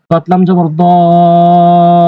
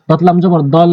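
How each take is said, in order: First: দতলাম জবর দল with the vowel drawn out very slowly, four alif long, before the hold; long madd stretch. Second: দতলাম জবর দল with the hold first and the stretch after it; wrong Quran recitation, stretching after the hold; wrong madd demo. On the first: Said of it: "ধরার আগেই টেনে পড়বেন চার আলিফ". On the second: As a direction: show the wrong way, stretching দল only after the stop. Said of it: "এভাবে পড়া যাবে না, এটি ভুল". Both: Shown as a demonstration.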